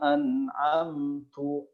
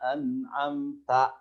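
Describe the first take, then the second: First: The word ends with an 'u' vowel. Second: The word ends with an 'a' vowel. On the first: The speaker calls it wrong. "Tapi dibaca an'amtu alaihim" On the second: The speaker calls it right. "harusnya siratal ladzina an'amta"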